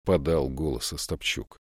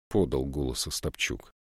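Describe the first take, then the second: First: "подал" stressed on the second syllable, под-АЛ; wrong stress. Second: "подал" stressed on the first syllable, ПОдал; corrected stress. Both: Shown as a demonstration.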